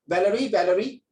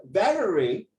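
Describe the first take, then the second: First: "Valerie" said quickly twice in everyday Singaporean style; local pronunciation. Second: "Valerie" drawn out with a foreign lilt, rising at the end; international pronunciation. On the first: Tutor showing how people say the student's name, local pronunciation of "Valerie". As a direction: say "Valerie, Valerie" the local way, lifting at the end. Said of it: "but pronounce it this way".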